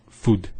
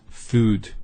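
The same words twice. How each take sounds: First: Food with a short U. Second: Food with a long U. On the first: Teacher showing the wrong food. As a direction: clip the U in food. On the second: Teacher contrasting right food. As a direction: hold the U in food. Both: Shown as a demonstration. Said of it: "not food".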